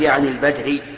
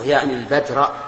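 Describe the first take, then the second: First: The last word ends with a 'u' vowel. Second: The last word ends with an 'a' vowel. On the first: The word is quoted as it stood. The speaker calls it wrong. "لا تقول" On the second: The word is the object of the verb. The speaker calls it right. "أنا عندي منصوبة"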